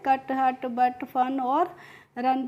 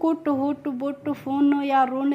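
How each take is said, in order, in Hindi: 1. स्वर खुला 'uh' है, जैसे 'cup' में। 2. स्वर गोल होठों वाला 'oo' है, जैसे 'put' में। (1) "कैसे पढ़ा है?" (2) "इस तरीके से नहीं पढ़ा है"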